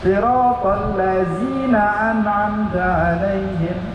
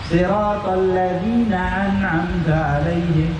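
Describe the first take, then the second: First: The consonant in 'ladzina' is a soft th. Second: The consonant in 'ladzina' is a hissing z. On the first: The speaker calls it right. "Benar kan?" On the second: The speaker calls it wrong. "Kita baca tadi zai"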